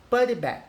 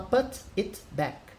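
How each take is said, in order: First: The words run together into one linked sound. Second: Each word is said separately, without linking. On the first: The speaker calls it right. "a gente junta, né? É, o som" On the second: The speaker calls it wrong. "você não vai falar put it back"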